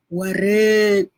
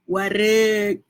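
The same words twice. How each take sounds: First: "wareg" said slowly, the final g swallowed; Javanese wareg. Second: "Wareg" with a clipped glottal k at the end; Javanese wareg again. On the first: Mum teaching viewers Javanese word for full, careful "wareg". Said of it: "sebutan dia". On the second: Mum repeating Javanese word for viewers, crisp final catch on "Wareg". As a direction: end "Wareg" on a sharp catch, like Kedah speech. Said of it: "sebutan dia bahasa Jawa kalau kenyang". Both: Shown as a demonstration.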